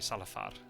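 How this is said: The name is said with Spanish pronunciation.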